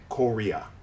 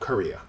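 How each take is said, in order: First: The unstressed vowels are full, clear vowels. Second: The unstressed vowels are reduced to schwas. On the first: The speaker calls it wrong. "They won't say Korea" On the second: The speaker calls it right. "these syllables simply become schwas"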